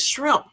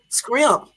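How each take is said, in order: First: The word begins with an shr sound. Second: The word begins with an skr sound. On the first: This is how the speaker thinks it should be said. The speaker calls it right. "it's shrimp" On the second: This is how the local southern speakers said it. The speaker calls it wrong. "not scrimp"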